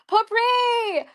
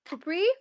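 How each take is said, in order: First: It is said confidently, with emphasis. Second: It is said hesitantly, like a question.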